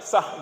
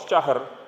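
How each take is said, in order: First: The word ends without an r sound. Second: The word ends with an audible r sound. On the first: The speaker calls it wrong. "tidak sah gitu" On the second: The speaker calls it right. "Hanya memang mati tapi ada huruf ro"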